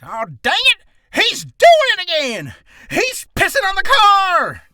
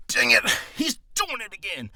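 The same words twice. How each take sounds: First: High, shouted southern drawl; outraged old-timer yelling in a southern drawl. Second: First-draft cranky character voice; lightly cartoonish griping; kiddie-sounding old man. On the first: Acted. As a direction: holler it slow with a southern twang. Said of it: "with a southern drawl". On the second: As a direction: complain in a childish put-on voice. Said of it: "it sounded kinda like Kitty".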